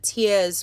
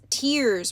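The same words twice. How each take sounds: First: The R is weak, with a loose, sloppy vowel. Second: The R sound at the end is strongly pronounced. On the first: "the sloppy pop vowels" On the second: "she's really emphasizing the R there"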